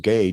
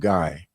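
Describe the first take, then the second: First: The vowel sounds like the one in 'day'. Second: The vowel sounds like the one in 'eye'. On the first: The speaker calls it wrong. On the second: The speaker calls it right. "so you would pronounce it as in German"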